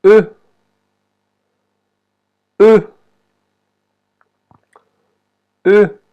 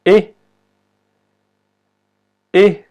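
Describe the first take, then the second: First: "E" as French e without accent, a rounded "uh"; short, emphatic French schwa "euh" for "E"; unaccented French E. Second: "E" as é, like the Spanish e; accented French E. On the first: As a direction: model "E" as the rounded "eu" sound, not é. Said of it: "la E sin el acento se pronuncia". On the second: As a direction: say "E" as a clean, short é, higher pitched. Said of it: "E como en español". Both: Shown as a demonstration.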